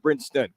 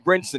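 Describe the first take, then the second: First: The name is said with a t sound. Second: The name is said without a t sound. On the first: The speaker calls it wrong. "not Brinston" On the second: The speaker calls it right. "it's Jimmy Brinson"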